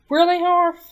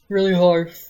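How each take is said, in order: First: It is said in a normal voice. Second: It is said in a deep, manly voice.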